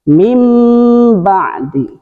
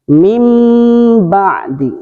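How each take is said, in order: No difference in how they are said.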